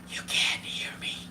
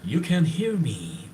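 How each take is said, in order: First: It is spoken in a soft whisper. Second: It is spoken in a normal, full voice. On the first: The speaker calls it right. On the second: The speaker calls it wrong.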